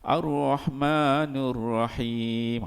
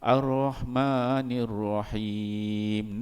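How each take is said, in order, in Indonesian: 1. Vokal setelah n adalah u. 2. Vokal setelah n adalah i. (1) "ada orang Melayu yang baca Ar-Rahmanur Rahim" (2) "yang betul Ar-Rahmanir Rahim. Nun ni bagi bagi bawah"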